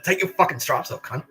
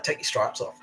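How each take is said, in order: First: Higher, re-enacted aggressive dare; retold angry challenge. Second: Said in the usual way. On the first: Prisoner daring screw to drop his rank, retold anger. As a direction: escalate into a retold fighting challenge.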